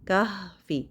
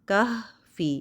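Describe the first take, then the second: No difference in how they are said.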